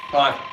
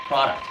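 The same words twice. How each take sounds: The two takes are said the same way.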